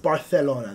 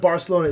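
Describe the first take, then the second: First: The c is said as a th sound. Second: The c is said as an s sound.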